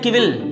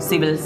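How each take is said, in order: First: The word begins with a k sound. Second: The word begins with an s sound. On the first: The speaker calls it wrong. "सिविल या किविल?" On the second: The speaker calls it right.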